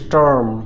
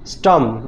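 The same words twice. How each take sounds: First: The r after the vowel is pronounced. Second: The r after the vowel is silent.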